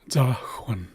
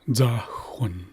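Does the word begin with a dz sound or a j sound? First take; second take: dz; dz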